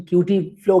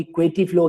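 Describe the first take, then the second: First: क्यूटी said as kyoo-tee, like cutie; one way to say Couette, as cutie; cutie flow. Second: क्वेटी said as kweh-tee; the other way to say Couette, as kweh-tee; quetty flow. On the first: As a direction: say क्यूटी with a clear kyoo sound at the start. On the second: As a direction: say क्वेटी with a kw sound and a short eh. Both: Shown as a demonstration. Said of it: "pronunciation इसका जो भी है".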